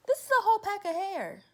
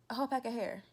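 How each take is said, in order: First: High, loud disbelieving exclamation; high loud astonishment; incredulous. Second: Said in the usual way. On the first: Real, not acted. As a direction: show it off in disbelief.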